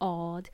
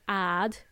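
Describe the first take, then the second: First: It is said in a British accent. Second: It is said in an American accent.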